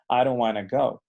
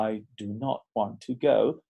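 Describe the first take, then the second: First: "wanna" run together, casual: "I don't wanna go"; relaxed American "don't wanna"; everyday reduced form. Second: Every word fully separate: "I do not want to go"; slow, textbook "I do not want to go"; careful full form. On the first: Teacher shows how Americans really say it, reduced. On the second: Teacher shows students the full textbook form, slowly. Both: Shown as a demonstration. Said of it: "en el día a día tú escucharías".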